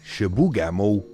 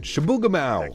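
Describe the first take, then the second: First: The name is said with a French accent. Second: The name is said with an English accent.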